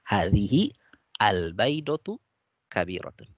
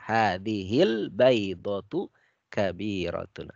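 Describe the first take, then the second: First: Each word is read apart, broken up. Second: The article is joined to the preceding word.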